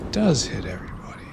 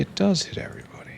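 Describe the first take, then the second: First: Quieter, fast whisper; soft whisper. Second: High, fast breathy whisper; breathy high aside. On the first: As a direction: say it again under your breath, fast. Repeating it to himself. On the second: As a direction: toss it off in a quick, high whisper. Gloating over a working upgrade. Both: Real, not acted.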